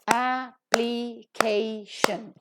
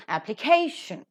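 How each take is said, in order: First: Application very slowly, broken into a-pli-kay-shun; syllable by syllable. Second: Application as one word, accented on CA; stress on KAY. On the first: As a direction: separate all four syllables of application. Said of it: "Four syllables are there". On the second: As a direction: say appli-CA-tion, leaning on the third syllable. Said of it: "that is to be given accent". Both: Shown as a demonstration.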